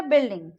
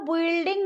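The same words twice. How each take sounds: First: बिल्डिंग said as bil-ding, U silent; बिल्डिंग in two syllables; correct pronunciation demo. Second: बिल्डिंग said with the U sounded, bu-il-ding; mispronunciation demo. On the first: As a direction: say बिल्डिंग without any U. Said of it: "यू silent हो जाएगा". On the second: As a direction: wrongly voice the U in बिल्डिंग. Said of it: "नहीं बोलेंगे". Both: Shown as a demonstration.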